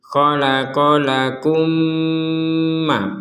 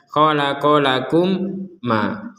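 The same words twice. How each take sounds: First: The two m sounds merge with a nasal hum. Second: The first m is pronounced separately and clearly. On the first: The speaker calls it right. "plus dengung" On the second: The speaker calls it wrong. "Kalau baca jelas"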